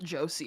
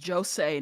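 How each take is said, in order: First: The word ends with a 'see' sound. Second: The word ends with a 'say' sound. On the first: The speaker calls it wrong. "not Josie. I don't know why she's pronouncing it like a name" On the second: The speaker calls it right. "it's Josei"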